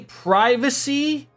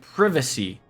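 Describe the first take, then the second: First: The word is said in a non-British way. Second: The word is said in a British way. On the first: "Do you say privacy?" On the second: "like this guy did"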